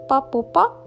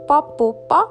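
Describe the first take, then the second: First: The words are squeezed into one short word. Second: The words are squeezed into one short word.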